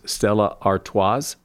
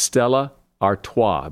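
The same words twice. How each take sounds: First: The final S of Artois is pronounced. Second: The final S of Artois is silent. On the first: The speaker calls it wrong. "A lot of people pronounce that last S" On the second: The speaker calls it right. "The last S is silent"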